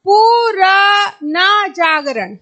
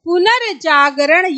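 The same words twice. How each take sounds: First: The r sound comes at a shifted position. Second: The r sound comes at the standard position. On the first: The speaker calls it wrong. "ये आपका वैसे भी गलत होने वाला है" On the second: The speaker calls it right. "ये सही होगा"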